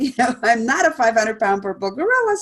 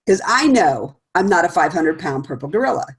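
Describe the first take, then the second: First: Amused dismissal. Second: Said in the usual way. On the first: Retold or imitated. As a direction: chuckle through "I'm not a five hundred pound purple gorilla" as if it's absurd. Quoted reply, set against plain restatement.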